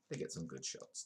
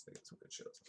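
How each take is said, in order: First: Said in the usual way. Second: Whispered, voiceless repeat. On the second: Acted. Vlogger repeating the paparazzi joke as a whisper. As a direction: hush it like a naughty secret.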